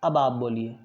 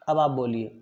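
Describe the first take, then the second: No difference in how they are said.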